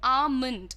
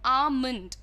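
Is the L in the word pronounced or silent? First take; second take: silent; silent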